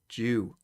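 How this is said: The word starts with a 'j' sound, British style. The speaker calls it right.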